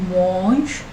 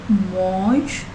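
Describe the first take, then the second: Both takes have the same delivery.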